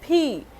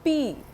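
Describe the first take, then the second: First: The letter is said English-style. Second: The letter is said Hindi-style. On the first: The speaker calls it right. "it's P" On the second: The speaker calls it wrong. "So it's not P"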